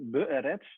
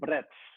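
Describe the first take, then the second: First: Both E vowels are pronounced separately. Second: The vowels are swallowed into one syllable. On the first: "you have two E sounds, the very short E" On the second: "you sometimes swallow it in"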